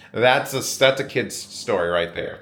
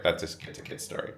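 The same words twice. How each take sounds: First: Said in the usual way. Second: Fast whispered repeat. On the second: Real, not acted. Repeating the tampon joke to camera, whispered. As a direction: whisper the punchline again, quick.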